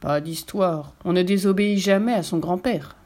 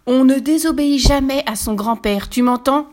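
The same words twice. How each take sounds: First: Said in the usual way. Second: Big booming yell. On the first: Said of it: "rétorque le vieux loup". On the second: A narrator's reading. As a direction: roar it in your biggest voice. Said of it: "hurle Lucas de sa plus grosse voix".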